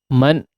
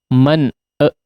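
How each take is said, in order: First: The n ends plainly with nothing added. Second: An extra vowel sound is added after the n. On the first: The speaker calls it right. "biasa saja" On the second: The speaker calls it wrong. "e ya ada e-nya"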